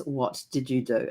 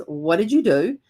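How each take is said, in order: First: Slow, softer and lower, holding back; weary low question after a deep breath. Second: Said in the usual way. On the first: Retold or imitated. Husband, after a deep breath, asks about the paint slowly and quietly. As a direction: take a breath, then ask slowly and quietly. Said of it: "takes a deep breath and goes". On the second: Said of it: "he looks at me and he goes".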